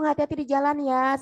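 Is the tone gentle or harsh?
gentle. It is said in a warm, gentle tone. The speaker calls it right. "itu doa loh"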